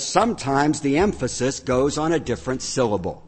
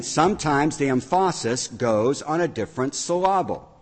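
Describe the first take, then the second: First: Said in the usual way. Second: Straight-faced misplaced stress on "emphasis" and "syllable", as em-FAH-sis and suh-LAH-bul; wrong-syllable stress. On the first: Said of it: "if I just tweak it a little bit". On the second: Shown as a demonstration. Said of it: "what I actually said was".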